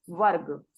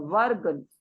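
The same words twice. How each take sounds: First: वर्ग repeated low and falling; stress on वर्ग. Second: वर्ग said low and falling, firm; stress on वर्ग. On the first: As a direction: press वर्ग firmly, not वर्ण. (वर्ग शब्द पर ज़ोर) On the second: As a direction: hit वर्ग to set it apart from वर्ण. (वर्ग पर ज़ोर) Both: Shown as a demonstration. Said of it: "वर्ण नहीं है".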